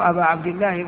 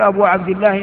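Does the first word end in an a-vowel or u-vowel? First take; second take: a-vowel; u-vowel. First: The first word ends in an a-vowel. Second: The first word ends in a u-vowel. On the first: The word is treated as accusative. The speaker calls it right. "إنما تقول أبا عبد الله، واجب النصب" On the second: The word is treated as nominative. The speaker calls it wrong. "لا تقول أبو عبد الله"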